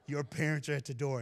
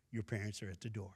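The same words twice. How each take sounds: First: Repeats the line through a laugh. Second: Said in the usual way. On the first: Retold or imitated. Retelling the teacher's call to the crowd, laughing. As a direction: laugh it out, amused.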